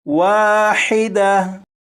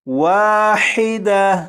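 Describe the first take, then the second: The two takes are said the same way.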